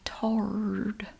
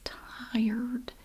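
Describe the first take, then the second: First: The vowel is a plain 'ah', like 'tar'. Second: The vowel glides, like in 'tie'. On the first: Older people in the local dialect say it this way. "they say tarred. Like T A R R E D" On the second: This is the ordinary way to say the word. "but it's tired"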